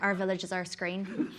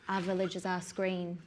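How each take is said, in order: First: It is said in a Northern Irish accent. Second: It is said in a Northern English accent. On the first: "Northern Ireland" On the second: "north of England would be like"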